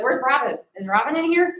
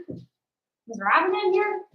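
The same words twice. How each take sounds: First: Dog's voice. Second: Higher, slow drawn-out "here"; dog's voice, drawn out. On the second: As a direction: stretch "here" out like an eager puppy. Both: Retold or imitated. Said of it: "He's like".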